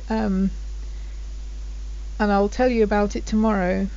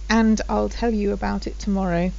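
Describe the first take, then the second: First: The D at the end of 'and' is dropped. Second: The D at the end of 'and' is pronounced. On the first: "the D goes as well" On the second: "The D should really be"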